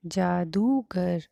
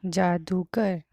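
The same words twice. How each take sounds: First: जादूगर very slowly, the दू held long; teacher slowly modelling the long oo; slow drawn-out long oo. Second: जादूगर said loud and clear with a falling end; teacher reading a word to the class; clear dictation. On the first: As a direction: stretch the ऊ in जादूगर way out. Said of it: "इसका उच्चारण ऊंचे स्वर में होगा।". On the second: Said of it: "अब हम बड़े ऊ की मात्रा के". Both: Shown as a demonstration.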